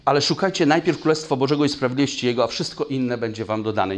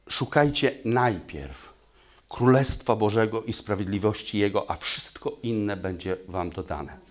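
First: Fast and loud scripture recitation; fast forceful recitation. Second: Slow, weighty scripture reading; slow emphatic reading. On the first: Preacher drives the verse home to the church, fast and loud. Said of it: "recites the verse a third time". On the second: Preacher rereads the verse slowly for the congregation to sink in. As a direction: lean on each word, slowly. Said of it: "Słowo mówi". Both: Shown as a demonstration.

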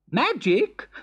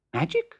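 First: Eager. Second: Leaping very high on the word "Magic?"; excited. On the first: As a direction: repeat "Magic?" keenly, rising. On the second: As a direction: squeal "Magic?" in sudden delight. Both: Acted. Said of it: "said the excited Emperor".

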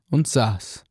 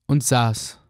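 No difference in how they are said.

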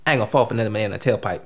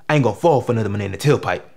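First: Quick, lower aside as a movie character; lacking bass. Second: Low, quick line with more bass. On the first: Actor reciting an audition movie line, lacking bass. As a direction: rattle the line off quickly without much weight. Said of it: "you gotta say it with some bass in your voice". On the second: Actor correcting his audition line, bass in voice. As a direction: put some bass behind it and push it out. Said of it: "say it with some bass in your voice". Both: Acted.

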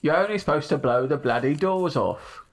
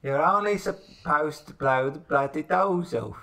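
First: Lightly done Cockney film star voice; a hint of Cockney Michael Caine; Michael Caine impression. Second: Slow drawn-out Cockney Michael Caine; Michael Caine impression. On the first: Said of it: "I can do Michael Caine". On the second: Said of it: "Can you do Michael?".

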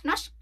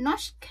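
First: Norsk clipped short, k barely there. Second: Norsk with the final k clearly sounded; norsk, end on a crisp k; say norsk the Norwegian way. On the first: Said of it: "แต่ว่าออกสั้นๆค่ะ". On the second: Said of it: "เราต้องออกเสียงโคด้วย". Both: Shown as a demonstration.

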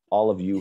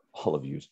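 First: Said in the usual way. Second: Softer New Jersey "yous", an accidental slip; New Jersey accent. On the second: Real, not acted. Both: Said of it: "like a New Jersey accent".

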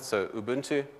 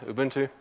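First: Said in the usual way. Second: "Ubuntu" said oo-BOON-too with rising end; South African Ubuntu. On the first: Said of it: "with my South African accent". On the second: Shown as a demonstration. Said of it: "with my South African accent, I can say that".

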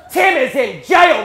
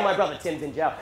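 First: Slow, high, loud outrage; exasperated shout. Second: Said in the usual way. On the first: Retold or imitated. Dying dad comparing his sons, shouting. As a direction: bellow it in acted disbelief. Dying father rants about other son.

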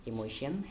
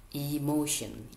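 First: Said in the usual way. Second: "emotion" spoken carefully with stress on "mo". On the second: Shown as a demonstration. Teacher introducing a three-syllable word, stress on "mo" in "emotion". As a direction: lean on the middle syllable "mo" in "emotion". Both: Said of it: "the stress syllables is in emo, mo".

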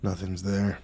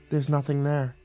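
First: Low, soft, dazed echo; muttered. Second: Soft, mildly firm assurance. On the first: Dazed guard echoing the nymph, muttering. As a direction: mutter it as if persuaded. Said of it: "away from us and muttered". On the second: Nymph convincing dazed guard, firmly. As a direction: steer him off with quiet certainty. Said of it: "said firmly". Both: A narrator's reading.

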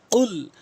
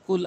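First: "কুল" with q from the tongue root; correct deep q. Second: "কুল" with an ordinary front k; light plain k in "কুল"; common mispronunciation. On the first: Shown as a demonstration. Teacher showing learners the deep "কুল". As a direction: pop the first sound of "কুল" far back and hold it. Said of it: "কফটি জিহ্বার গোড়া উপরে তালু থেকে". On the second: Retold or imitated. Teacher quoting most people's mistake, plain-k "কুল". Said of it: "যার ভুল অর্থ".

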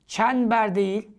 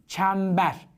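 First: "Çember" said as çenber with n; "Çember" を n で言う; wrong n sound. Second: "çember" with a clear m; correct m sound. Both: Shown as a demonstration.

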